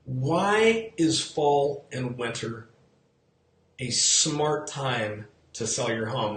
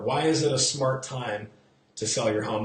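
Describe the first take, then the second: First: "smart" leaned on in a slow question; slow, stressed question. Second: "smart" stressed. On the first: Agent posing the key question to viewers, slow with stress on smart. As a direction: draw the question out slowly. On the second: Agent re-asking the question to viewers, stressing smart. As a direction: lean on "smart". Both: Shown as a demonstration. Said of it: "put the emphasis on the word smart".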